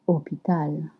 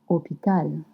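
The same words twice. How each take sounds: The two takes are said the same way.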